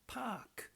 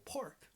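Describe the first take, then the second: First: It is said in a non-American accent. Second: It is said in an American accent. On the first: "This A is pronounced a long ah sound" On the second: "But in America, they pronounce a park"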